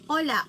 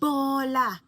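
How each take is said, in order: First: The word starts with a vowel, no b sound. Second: The word starts with a clear b sound. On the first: The speaker calls it wrong. "sinasabi niya, ola, ola, para sa bola" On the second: The speaker calls it right. "kunin natin yung bola"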